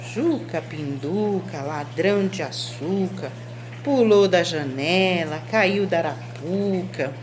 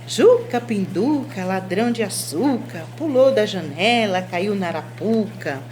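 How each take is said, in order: First: It is said in a flat, uninterested tone. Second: It is said in a happy, cheerful tone. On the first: The speaker does not care what happened. "Tô indiferente" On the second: The speaker is delighted by the story. "Um sentimento de alegria"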